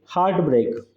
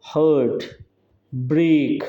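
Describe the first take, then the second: First: Said in the usual way. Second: hurt and break each stretched, pause between; two long syllables. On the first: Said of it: "दोनों syllables कैसे हैं". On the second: Shown as a demonstration. Teacher showing a spondee to students, hurt, break both held long. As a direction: draw out hurt, stop, draw out break. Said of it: "long syllable हैं".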